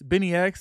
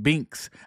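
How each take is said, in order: First: The name is said as Benny X. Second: The name is said as Binks. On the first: The speaker calls it right. "Am I saying saying that right?" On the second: The speaker calls it wrong. "some people be saying fucking Binks. I know that's not right"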